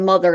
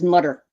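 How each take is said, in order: First: The middle consonant is a th sound. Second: The middle consonant is a t sound. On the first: This is the usual mainland way of saying it. "instead of mother" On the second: This is how people say it where the speaker grew up. "where I'm from originally, it would be"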